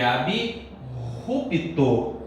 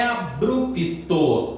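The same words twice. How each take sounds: First: "abrupto" slowly as ab-rupto, with guttural r; correct pronunciation. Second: "abrupto" slowly as a-brup-to; wrong pronunciation. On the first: Teacher shows the right sound, "abrupto" as slow ab-rupto. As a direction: split b from r in "abrupto". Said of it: "A pronúncia é". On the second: Teacher rejects the common mistake, "abrupto" as a-brupto. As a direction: blend br with a tapped r in "abrupto". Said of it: "não é abrupto". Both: Shown as a demonstration.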